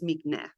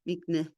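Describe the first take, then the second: First: The word ends on a vowel, no final h. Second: The word ends with an audible h sound. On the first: "You don't hear the hey" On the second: "If I put a dot in it, it would be mikneh"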